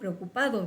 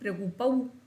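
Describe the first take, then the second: First: The d before the final vowel is pronounced. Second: The d before the final vowel is dropped. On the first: This is the full standard form. "ya la gente ni siquiera dice dado, preocupado" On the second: This is how local people actually speak. "dice dau, preocupau"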